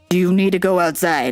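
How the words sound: It is asked in a put-on mom voice.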